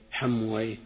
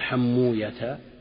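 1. ينتهي الاسم بصوت -wayh. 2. ينتهي الاسم بصوت -uya، من غير -wayh. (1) "وأما أهل اللغة يقول راهويه سيبويه نفطويه حمويه" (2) "وأهل الحديث يقول حموية"

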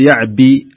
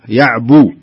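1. الحركة بعد الباء كسرة. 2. الحركة بعد الباء ضمة. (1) "لا تقول يعبي، لا" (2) "الباء ضمة ها، وليست كسرة"

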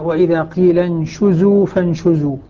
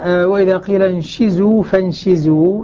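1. يتبع صوت 'sh' حركة 'u'. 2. يتبع صوت 'sh' حركة 'i'. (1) "بضم الشين" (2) "بكسر الشين"

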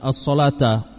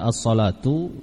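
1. Kata itu diakhiri dengan vokal 'a'. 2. Kata itu diakhiri dengan vokal 'u'. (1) "bisa pula dibaca as-salata" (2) "Ini bisa dibaca as-salatu"

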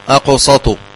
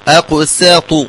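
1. صوت السين ثقيل ومفخّم. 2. صوت السين خفيف ومرقّق. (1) "لا أقول أقسط، فتتغير المعنى" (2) "وكذلك أقسط عند الله"

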